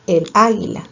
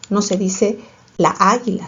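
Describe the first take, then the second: First: "el águila" said short and plain as the right form; correct form. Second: "la águila" with long drawn "la"; wrong form marked. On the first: Teacher giving pupils the correct article form, plainly. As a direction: give "el águila" as the correct answer. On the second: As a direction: stretch "laː" to show the clash of the two A sounds. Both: Shown as a demonstration.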